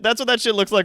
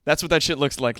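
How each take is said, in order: First: Fast, louder, pumped commercial read; hyped-up ad voice. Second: Said in the usual way. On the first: Shown as a demonstration. Streamer dials his line up to eleven, fast and hyped. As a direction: crank it to eleven like a hype ad. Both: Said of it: "when I dial it up to eleven".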